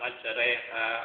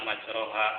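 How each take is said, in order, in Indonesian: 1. Vokal setelah r condong ke bunyi e. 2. Vokal setelah r adalah bunyi o penuh. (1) "harus dibaca mendekatkan ke tanda kasroh. Jadi dibaca majreha" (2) "Sedangkan kebanyakan dibaca majroha. Nah itu salah"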